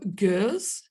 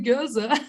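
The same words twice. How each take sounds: First: The word is said in a careful pronunciation. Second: The word is said in an instinctive pronunciation. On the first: The speaker calls it right. "you just got closer to pronouncing it correctly" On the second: The speaker calls it wrong. "my natural instinct to say is to say Gueuze, but it's not"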